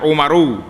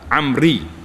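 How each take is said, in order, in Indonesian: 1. Awalnya u dan akhirnya aru. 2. Awalnya a dan akhirnya ri. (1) "jangan baca Umaru" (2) "dia baca Amri"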